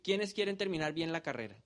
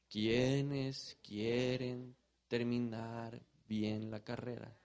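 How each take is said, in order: First: The question is asked at a quick pace. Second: The question is asked at a slow pace. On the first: "yo iba muy rápido" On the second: "voy a decirlo más lento"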